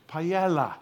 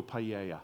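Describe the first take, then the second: First: "Paella" said pa-EL-la, l sounded. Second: "paella" said pa-AY-ya, no l heard; paella with a y sound. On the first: Preacher teasing the congregation, "Paella" pronounced pa-EL-la. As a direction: pronounce "Paella" with a clear l, emphatically. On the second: Inviting Roberto to cook, "paella" pronounced pa-AY-ya. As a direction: say "paella" with a y for the double l. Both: Shown as a demonstration. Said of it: "Get it right".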